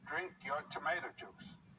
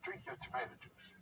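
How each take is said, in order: First: It is said in a louder voice. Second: It is said at a normal, softer volume.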